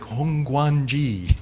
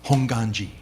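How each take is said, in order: First: A 'w' sound follows the 'g'. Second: No 'w' sound follows the 'g'. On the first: The speaker calls it wrong. "A lot of people see this and they're like" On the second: The speaker calls it right. "But the W is silent"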